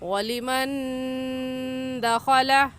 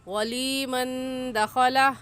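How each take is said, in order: First: The vowel after the L is kept short. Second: The vowel after the L is drawn out long. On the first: The speaker calls it right. "सही है" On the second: The speaker calls it wrong. "ये भी गलत है"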